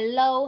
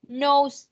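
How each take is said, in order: First: The word begins with an L sound. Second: The word begins with an N sound. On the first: The speaker calls it wrong. "không phải low" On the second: The speaker calls it right. "Nose chứ không phải low ha"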